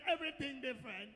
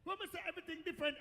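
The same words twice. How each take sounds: First: EVERYTHING said deliberately, pitch falling; stress on EVERYTHING. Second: Said in the usual way. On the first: Shown as a demonstration. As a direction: repeat with weight on "everything".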